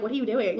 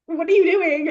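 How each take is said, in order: First: Said in the usual way. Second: Higher mock-startled "what are you doing"; acted startled question. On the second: Heroine to lover going down on her, acted startled question. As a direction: play her taken aback, pitched up.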